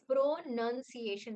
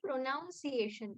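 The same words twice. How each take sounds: First: The word is said as it is spelled. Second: The word is said unlike its spelling. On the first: The speaker calls it right. "It is pronunciation" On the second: The speaker calls it wrong. "many people say pronunciation, but that's not even the spelling"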